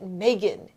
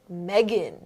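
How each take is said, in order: First: The first vowel sounds like the one in May. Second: The first vowel sounds like the one in egg. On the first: The speaker calls it wrong. "her name isn't Megan" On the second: The speaker calls it right. "it's Megan"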